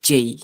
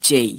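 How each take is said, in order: The two takes are said the same way.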